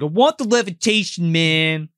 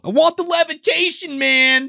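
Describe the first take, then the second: First: Slightly raised, less intense demand; retelling the heckler's demand more mildly; lighter retelling. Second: Much higher, louder demand; demanding shout. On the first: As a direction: say it again, toned down. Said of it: "He's like". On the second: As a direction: yell it at the magician like a brat. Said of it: "yelling at this guy". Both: Retold or imitated.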